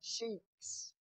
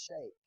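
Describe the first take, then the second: First: The vowel sounds like 'ee' in 'see'. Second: The vowel sounds like 'ay' in 'say'. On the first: The speaker calls it wrong. "I know some of you call it sheeks" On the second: The speaker calls it right. "but it's really pronounced shake"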